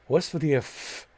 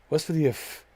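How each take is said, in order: No difference in how they are said.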